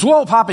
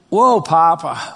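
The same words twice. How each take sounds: First: Put-on higher and louder, a boy's excited "Whoa, Papa"; imitating grandson. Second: Slow, reverent "Whoa, Papa" to God. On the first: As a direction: burst out like an eager grandson correcting grandpa. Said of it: "he goes". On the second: Real, not acted. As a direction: let the wonder stretch out, slowly. Pastor addresses God in awe.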